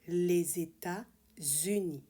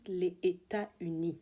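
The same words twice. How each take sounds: First: The words are linked with two z sounds. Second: The words are said separately without a z link. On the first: The speaker calls it right. "you have to make two liaisons here" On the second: The speaker calls it wrong. "It's not"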